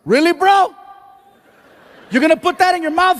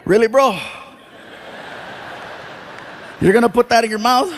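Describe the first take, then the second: First: Mock yell. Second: Dry callback scold. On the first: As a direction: shout it across the room, hammed up. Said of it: "He starts yelling". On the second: Retold or imitated. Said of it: "I gotta look at him and say".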